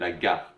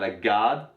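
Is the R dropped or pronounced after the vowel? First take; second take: pronounced; dropped. First: The vowel is short and the R pronounced. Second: The vowel is lengthened and the R dropped. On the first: The speaker calls it right. "c'est la garde" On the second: The speaker calls it wrong. "C'est pas la garde"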